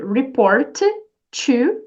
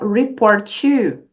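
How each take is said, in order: First: The T sound is pronounced twice, separately. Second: The T sound is pronounced once, linking words. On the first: The speaker calls it wrong. "em vez de você dizer" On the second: The speaker calls it right. "você vai falar a letra apenas uma vez e sempre vai ser da segunda palavra"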